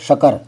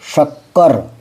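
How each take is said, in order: First: The k sound in the middle is single. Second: The k sound in the middle is doubled. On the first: The speaker calls it wrong. "अगर ये आधा कहने लगे तो ये जगह शकर" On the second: The speaker calls it right. "आधे अक्षर का भी देख लो"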